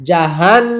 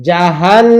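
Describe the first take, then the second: No difference in how they are said.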